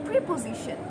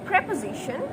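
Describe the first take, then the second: Both takes have the same delivery.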